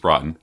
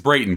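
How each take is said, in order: First: The name has its original old-country pronunciation. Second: The name has its anglicized English pronunciation. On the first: This is how the name was said before it changed. "The old country, it was Braton" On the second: This is how the family name is said today. "No, it's Brayton"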